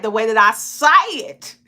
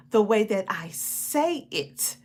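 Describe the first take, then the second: First: Louder Southern twang, "say it" run together; country twang. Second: "say it" as two clean, separate words, slowly; slow, softer, precise "say it"; careful correct pronunciation. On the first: Host contrasting their own speech with correct English, country twang. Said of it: "But I was like". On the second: Host modelling correct English for a learner, careful "say it". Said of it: "The correct English pronunciation is". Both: Shown as a demonstration.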